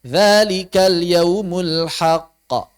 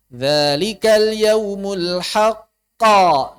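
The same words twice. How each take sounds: First: Slow recitation, "haqqa" ending in a short, even bounce; qalqalah normal. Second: Slow, loud recitation surging on the end of "haqqa"; qalqalah pakai naber. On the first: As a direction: release "haqqa" briefly, level with the other vowels. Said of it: "Normal saja". ("haqqa" dipantulkan pendek, setara harakat lain) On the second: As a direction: blast the final bounce of "haqqa" higher and louder. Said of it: "Ini itu pakai naber". ("haqqa" dilonjakkan keras dan tinggi di akhir) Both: Shown as a demonstration.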